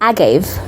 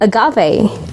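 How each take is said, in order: First: It is pronounced the British way. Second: It is pronounced the American way. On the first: "for British, it's pronounced as" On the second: "In American, it's pronounced as"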